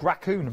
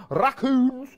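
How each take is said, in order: First: Said in the usual way. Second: High, loud Scottish lilt; Scottish accent. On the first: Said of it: "when I said raccoons". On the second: Real, not acted. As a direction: burst into a Scottish accent on the word. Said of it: "I went Scottish then when I said raccoons".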